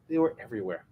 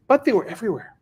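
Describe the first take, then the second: First: Softer, level echo for effect; understated, softly restated aside; subdued repeat. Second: Higher-pitched, punched "But they were everywhere"; emphatic statement. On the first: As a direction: let it drop, quieter. Softer echo of previous line. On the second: Emphatic line, then softer repeat. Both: Real, not acted.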